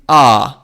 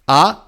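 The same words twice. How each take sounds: First: The vowel is held twice as long. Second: The vowel is held only briefly. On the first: "a long one" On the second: "a short one"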